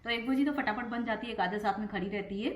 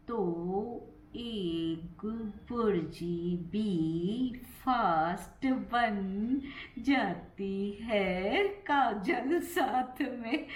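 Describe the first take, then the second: First: Said in the usual way. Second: Syllable-by-syllable, heavily stretched delivery; very slow. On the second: Shown as a demonstration. Vlogger practising slow speech about cooking, very slow talking. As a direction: draw each word right out, laughter creeping in at the end. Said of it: "ऐसे नहीं बोल पाऊंगी मैं".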